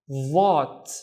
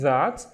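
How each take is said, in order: First: The first sound is heavy and emphatic. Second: The first sound is plain and light.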